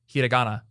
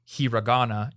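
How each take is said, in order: First: The R is a Japanese-style tapped R sound. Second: The R is an English-style R sound. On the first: The speaker calls it right. "the Japanese R" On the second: The speaker calls it wrong. "it's not hiragana"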